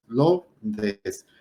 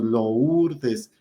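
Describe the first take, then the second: First: "Lourdes" said quickly as two syllables, Lour-des; the correct way. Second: "Lourdes" slowed and split into three syllables, Lou-r-des; the mistaken emphatic way; wrong three-syllable split. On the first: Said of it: "no son tres sílabas, son dos". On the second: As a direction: stretch "Lourdes" apart into three beats. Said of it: "hacer énfasis y decir". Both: Shown as a demonstration.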